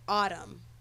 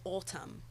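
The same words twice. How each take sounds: First: It is said in an American East Coast accent. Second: It is said in a British accent. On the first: This is the speaker's own way of saying it. "that's how I say it" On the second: This is how someone else says it. "but she says autumn"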